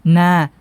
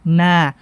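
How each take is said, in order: The two takes are said the same way.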